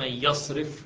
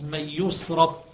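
First: The verb begins with ya, in active form. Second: The verb begins with yu, in passive form. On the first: The doer of the turning away is named. "والثانية مبني للمعلوم" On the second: The doer of the turning away is unnamed. "القراءة الأولى مبني للمجهول"

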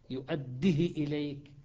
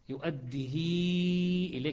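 First: The vowel after the h is very short. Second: The vowel after the h is long. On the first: The speaker calls it wrong. "شوف الدال مكسورة كسرة مختلسة، والهاء مختلسة" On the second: The speaker calls it right. "صارت ياء كأنها"

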